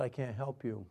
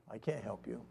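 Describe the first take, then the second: First: Said in the usual way. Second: Quiet, lower inward admission; softly, as if only thinking it; unspoken thought. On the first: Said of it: "And I told him, said". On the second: Retold or imitated. Man silently answering the kid, unspoken thought. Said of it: "I didn't tell him the kid".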